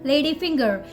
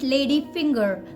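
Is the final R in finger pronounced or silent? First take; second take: pronounced; pronounced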